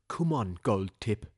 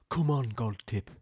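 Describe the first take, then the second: No difference in how they are said.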